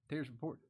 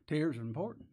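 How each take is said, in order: First: "Tears are important" said again much softer; soft repeat. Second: Said in the usual way. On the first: Shown as a demonstration. Preacher repeating "Tears are important" softly to his congregation. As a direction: drop the volume and let "Tears" land quietly.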